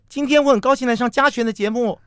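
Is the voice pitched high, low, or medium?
high. It is spoken at a high pitch.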